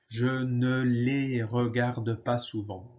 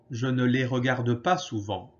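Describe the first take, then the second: First: Slow and even, every syllable laid out; slow model repeat. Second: Said in the usual way. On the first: Shown as a demonstration. Teacher to students, slow careful repeat. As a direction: say it slowly so students can copy. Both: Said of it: "Alors, répétez".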